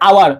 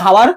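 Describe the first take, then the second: First: The word begins with a vowel sound. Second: The word begins with an h sound. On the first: The speaker calls it right. "আমরা বলি আওয়ার" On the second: The speaker calls it wrong. "আমরা কি বলি যে হাওয়ার"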